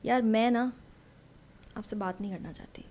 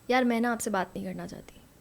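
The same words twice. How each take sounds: First: The sentence has a pause inside it. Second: The sentence runs on without a pause. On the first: "उसमें ना seriousness add हो गई एक pause से" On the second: "ये एक तरह मैंने बोल दिया"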